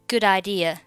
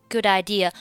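First: The d of good links into idea. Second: The d of good links into idea.

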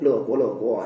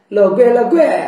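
First: 国 is pronounced guo, the modern reading. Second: 国 is pronounced gui, an old reading. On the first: The lines no longer rhyme in modern Mandarin. "用普通话读它不押韵了" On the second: The lines rhyme as they did in ancient times. "据说上古的声音呢、……国字应该读贵"

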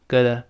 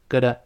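First: It is quick, with a soft t and weak vowels. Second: The same.

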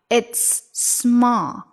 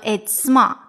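First: The linked s sound is held long. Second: The linked s sound is cut short. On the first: The speaker calls it right. "所以它其实还是两个音的位置" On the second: The speaker calls it wrong. "你不能It's small 那就不好听了"

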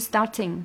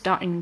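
First: The t is released with a clear burst. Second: The t is held without any burst. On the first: The speaker calls it wrong. "它不是starting，它没有爆破" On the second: The speaker calls it right. "它直接就是starting"

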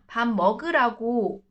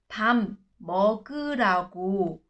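First: The phrase is said at a quicker pace. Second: The phrase is said very slowly. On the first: "那我们快一点" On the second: "超慢版的啊"

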